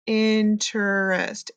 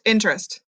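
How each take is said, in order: First: "Interest" said slowly with all three syllables; slow careful interest. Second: "Interest" quick, as intrest in two syllables; casual interest. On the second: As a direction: clip "Interest" down to two beats. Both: Shown as a demonstration. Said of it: "Sometimes we say 'em fast and casual".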